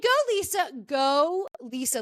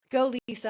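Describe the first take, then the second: First: Root for her like a fan; cheering. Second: Said in the usual way. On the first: Real, not acted. Cheering on friend Lisa.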